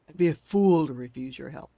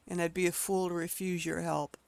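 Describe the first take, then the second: First: It is growled in a deep voice. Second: It is said in an ordinary voice.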